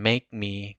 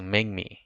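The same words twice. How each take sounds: First: The word make ends in a clear k sound. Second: The word make ends in a nasal ng sound.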